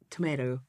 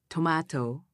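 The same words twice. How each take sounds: First: The word is said in an American accent. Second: The word is said in a British accent. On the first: "In America is tomato" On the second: "But England is"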